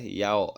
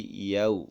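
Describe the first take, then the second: First: "yau" ending on an open o; wrong glide. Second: "yau" closing on u; correct glide. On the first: Teacher repeats the forbidden reading, "yau" ending on o. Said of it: "nggak boleh yau". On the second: Teacher gives the right reading, "yau" ending on u. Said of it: "tapi yau ya". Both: Shown as a demonstration.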